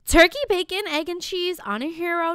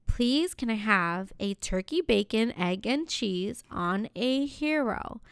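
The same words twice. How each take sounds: First: High, louder, fed-up order; exasperated repeat. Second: Slow, measured deli order; careful polite order. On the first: Customer repeating her order to the deli guy, high and exasperated. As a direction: repeat the order higher, losing patience. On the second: Customer ordering from the sandwich guy, slow and careful. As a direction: place the order politely, spelling it out slowly. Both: Retold or imitated.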